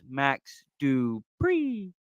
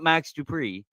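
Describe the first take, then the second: First: The end of the name gets extra emphasis. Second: The name ends plainly, without extra emphasis. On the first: The speaker calls it right. "it's Max Dupree. And he said it literally like that" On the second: The speaker calls it wrong. "They said it's not Max Dupree"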